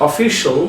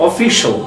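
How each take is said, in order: No difference in how they are said.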